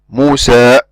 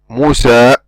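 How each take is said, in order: First: The final vowel is cut off suddenly. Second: The same.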